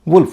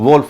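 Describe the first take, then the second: First: The vowel is an 'oo' sound. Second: The vowel is an 'oh' sound. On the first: The speaker calls it right. "वुल्फ होगा" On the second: The speaker calls it wrong. "इसका उच्चारण वोल्फ नहीं होगा"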